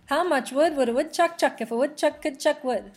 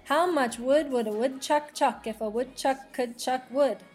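First: It is said fast. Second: It is said at a normal pace.

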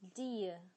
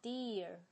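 First: It is British, with no final r. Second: It is American, with a strong final r.

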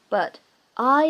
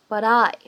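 First: The words are said separately without linking. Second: The words are linked with a flapped t. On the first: "如果不连读呢，也是完全没有问题的" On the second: "可以有一个连读，而且呢，在美式发音当中呢，存在一个闪音的处理"

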